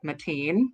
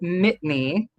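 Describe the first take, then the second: First: The name is said like Mateen. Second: The name is said like Mitney. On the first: Other people say it this way. "I've also heard some people pronounce it like Mateen" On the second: This is how the speaker says it. "So I pronounce it Mitney"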